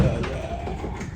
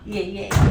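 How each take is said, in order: First: Breathy whispered yeah. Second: Said in the usual way. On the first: Real, not acted. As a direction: drop it to a whisper. Repeating yeah, then whispering.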